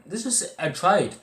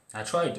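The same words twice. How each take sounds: First: High and loud, slowed down on I tried; pleading emphasis; emphatic insistence. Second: Said in the usual way. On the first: Real, not acted. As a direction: insist that you really tried. Insisting he really did try.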